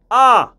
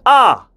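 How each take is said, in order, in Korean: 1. 모음이 또렷하고 단단히 꼬집혀 있어요. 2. 모음이 또렷하고 단단히 꼬집혀 있어요.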